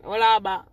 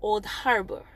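First: Put-on Old Harbor in a Jamaican accent. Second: Put-on Old Harbor without a Jamaican accent. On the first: Speaker showing how home sounds, Jamaican accent. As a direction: say it the Jamaican way, punched louder. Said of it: "is the Jamaican accent". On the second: Speaker demonstrates Old Harbor to listeners, without Jamaican accent. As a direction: try it minus the Jamaican accent. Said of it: "without the Jamaican accent". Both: Shown as a demonstration.

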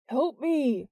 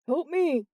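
First: Higher-pitched cry for help, moderately raised; restrained narrator's scream for help; mild scream. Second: High, urgent yell for help; yelled plea. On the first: Jordan hanging on to the intruder, mild scream. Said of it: "Jordan screamed again". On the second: Jordan struggling with the intruder, urgent yell. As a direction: call out in a struggle, voice lifted. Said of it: "Jordan yelled". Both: A narrator's reading.

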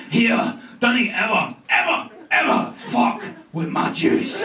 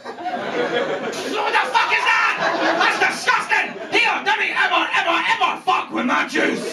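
First: Slow, menacing Scottish rasp; drawn-out Scottish warning with heavy pauses; scary Scottish accent. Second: High hammed-up Scottish outrage; high, mock-furious Scottish tirade; outraged people of Scotland. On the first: Retold or imitated. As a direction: imitate a Glaswegian threat, voice nearly gone. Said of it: "scariest words I've ever heard in a Scottish accent". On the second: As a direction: imitate a nation yelling in disgust, pitched way up. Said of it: "And the people of Scotland will".

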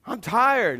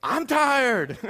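First: Higher-pitched tired complaint; mock complaint. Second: High mock-exhausted wail; imitating exhausted wife. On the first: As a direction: complain of being worn out. Acting out own tiredness to wife. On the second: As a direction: mimic a worn-out wife whining back. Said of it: "she looks at me and goes".

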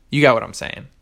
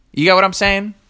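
First: Falling statement tune on saying; stating it. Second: Rising question tune on saying; high, rising question; asking. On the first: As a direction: say it flat out as a statement, voice dropping at the end. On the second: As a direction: ask it as a real question, voice climbing up at the end. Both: Shown as a demonstration. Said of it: "I don't need to ask".

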